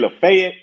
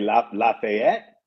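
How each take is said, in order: First: It is said the local Nashville way. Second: It is said the way outsiders say it. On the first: The person is from Nashville. "if you say Lafayette, you're from here" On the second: The person is not from Nashville. "If you say La, Lafayette, you're not from here"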